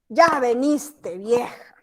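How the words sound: It is said with an annoyed, displeased tone. The speaker dislikes that the old woman arrived. "No le gustó que llegó la vieja"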